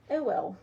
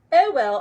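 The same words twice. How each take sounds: First: Said in the usual way. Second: Louder, insistent "It will."; emphatic reassurance. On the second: Real, not acted. Crafter firmly reassures a viewer she'll manage, loud and emphatic. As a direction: drive the "It will." home with force.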